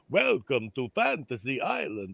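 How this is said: It is said in a Transylvanian accent. The speaker calls it wrong. "I sound like the Count"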